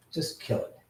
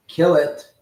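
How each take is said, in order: First: Urgent whispered instruction aside; whispered order. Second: Louder repeated command; loud order. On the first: Streamer quietly tells the helper to kill the app, whispered. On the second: Streamer repeats the order to his helper, loud and firm. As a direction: bark it out the second time. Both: Real, not acted.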